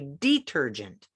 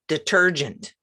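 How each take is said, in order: First: The first vowel is a long 'ee' sound. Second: The first vowel is a weak 'uh' sound. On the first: "Or you could say detergent" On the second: "But many places pronounce it, in the U S anyway"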